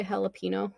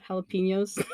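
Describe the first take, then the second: First: JALAPENO with a plain N, ha-la-PEE-no; English pronunciation. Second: Said in the usual way. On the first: Retold or imitated. Imitating how England says it, JALAPENO as ha-la-PEE-no. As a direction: say JALAPENO without the Spanish ny sound. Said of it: "in England, they say jalapeno". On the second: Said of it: "not jalapenos".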